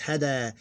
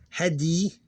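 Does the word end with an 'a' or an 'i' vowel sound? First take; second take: a; i. First: The word ends with an 'a' vowel. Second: The word ends with an 'i' vowel. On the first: The speaker calls it right. "it's hada" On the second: The speaker calls it wrong. "it's not hadi"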